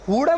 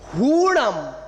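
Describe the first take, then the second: First: The u vowel is said short. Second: The u vowel is said long. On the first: The speaker calls it wrong. "हुड़म नहीं" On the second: The speaker calls it right. "दीर्घ और ह्रास्य होता है"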